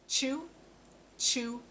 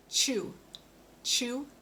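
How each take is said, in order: Both takes have the same delivery.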